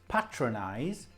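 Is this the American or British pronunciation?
British. It is said with the British pronunciation. "is the British"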